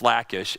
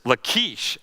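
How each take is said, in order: First: The name is said with an English pronunciation. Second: The name is said with a Hebrew pronunciation. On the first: This is the familiar pronunciation. The speaker calls it right. "no, it's Lachish" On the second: Someone else pronounced it this way. The speaker calls it wrong. "mispronouncing all these words, like he's using a Hebrew name"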